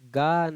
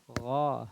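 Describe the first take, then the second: First: It starts with a plain hard g sound. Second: It starts with a rough sound from the throat. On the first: The speaker calls it wrong. "गा नहीं" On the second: The speaker calls it right. "गौ हलक से"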